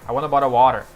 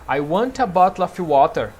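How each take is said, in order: First: It is said in an American accent. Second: It is said in a British accent. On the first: "E o americano diz" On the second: "O britânico diria"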